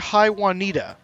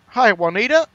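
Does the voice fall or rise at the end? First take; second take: falls; rises. First: The voice falls at the end. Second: The voice rises at the end, like a question.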